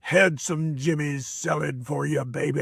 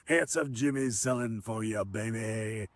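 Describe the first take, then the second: First: Slow, lightly voiced old wrestler drawl; lightly voiced grizzled wrestler boasting; imitating Handsome Jimmy. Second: Softer, lightly voiced veteran's line; quiet, smiling echo of the old wrestler; fond replay of Handsome Jimmy. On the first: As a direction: play the grizzled veteran coaching the kid, slowly. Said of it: "He goes". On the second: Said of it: "he said that".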